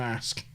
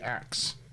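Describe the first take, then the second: First: The word ends with an sk sound. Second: The word ends with a ks sound. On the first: This is the usual form. "rather than ask" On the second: This is how some speakers in the South say it. "they say axe instead of"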